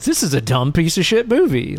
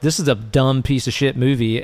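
First: It is said with a fond, appreciative tone. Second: It is said with a contemptuous, dismissive tone. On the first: The movie is silly but lovable. "my intonation changed. Like, the words were the same" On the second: The movie is genuinely bad. "honestly, just going into our Malignant episode, I was like"

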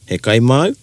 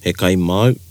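First: The voice rises at the end. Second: The voice falls at the end.

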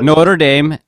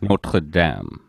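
First: The name has an anglicized English pronunciation. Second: The name has a French pronunciation. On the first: It names the college football team. "you would pronounce the college football team Notre Dame" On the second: It names the cathedral in France. "the French one"

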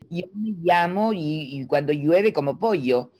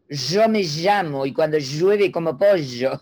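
First: The y and ll sound like Cuban i. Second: The y and ll sound like Argentine sh.

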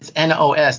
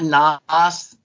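First: It is said letter by letter. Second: It is said as one single word. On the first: The speaker calls it right. "It's NOS, nitrous oxide systems" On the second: The speaker calls it wrong. "It's not NOS"

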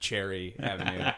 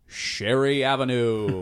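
First: The name is said in an ordinary, plain way. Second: The name is said in an odd, exaggerated way. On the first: This is how it is normally said. "instead of Cherry Avenue" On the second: This imitates how an announcer said it. "he would say that it was on Cherry Avenue"

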